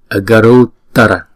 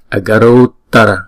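No difference in how they are said.

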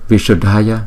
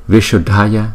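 Both takes have the same delivery.

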